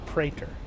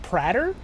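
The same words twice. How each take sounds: First: The first vowel is a long A sound. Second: The first vowel is a short A sound.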